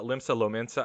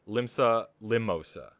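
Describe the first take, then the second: First: The second word is pronounced Lominsa. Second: The second word is pronounced Limosa. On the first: The speaker calls it right. "instead of uh" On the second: The speaker calls it wrong. "I mispronounced the town"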